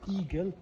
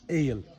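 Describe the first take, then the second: First: The name is read as spelled, like 'eagle'. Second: The name is said the Turkish way, like 'ale'. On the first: The speaker calls it wrong. "how it's said transliteratively" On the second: The speaker calls it right. "This is how the Turkish uh, pronounce it"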